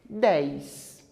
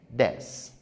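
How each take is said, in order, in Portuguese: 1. A vogal desliza para um som de i acrescentado. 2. A vogal é uma única vogal simples. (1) "Muitas pessoas pronunciam dez. ... Coloquei um I onde ele não existe" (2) "Nós pronunciamos dez"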